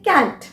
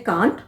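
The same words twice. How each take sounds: First: कैंट with a flat front "a" as in "cat"; American pronunciation. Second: कांट with a long open "aah" vowel; British pronunciation. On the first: Teacher shows how other people say the word, American pronunciation. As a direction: say कैंट as "kant" with an "ae" vowel. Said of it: "कुछ लोग बोलते हैं कैंट". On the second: Teacher shows how some people say the word, British pronunciation. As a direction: say कांट as "kaant", British style. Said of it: "कुछ लोग इसे बोलते हैं". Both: Shown as a demonstration.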